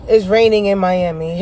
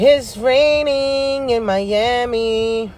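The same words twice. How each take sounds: First: Said in the usual way. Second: Slow drawn-out sing-song. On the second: Shown as a demonstration. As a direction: stretch every word out slowly, half singing. Repeats line, second take drawn out.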